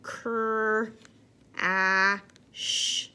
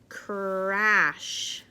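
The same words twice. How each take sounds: First: Cr, a, sh sounded one by one; sounding out words. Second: Said in the usual way. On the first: Shown as a demonstration. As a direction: segment the sounds slowly. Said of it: "Let's do it one more time". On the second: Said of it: "let's blend that word together".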